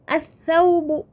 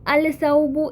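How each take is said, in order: First: The L merges into the following consonant. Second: The L is clearly pronounced before the consonant. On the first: The speaker calls it right. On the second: The speaker calls it wrong.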